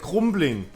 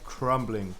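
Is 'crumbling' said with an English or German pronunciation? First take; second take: German; English. First: The word is said with German pronunciation. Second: The word is said with English pronunciation. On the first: "if it was German pronunciation, it would say like crumbling" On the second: "not crumbling"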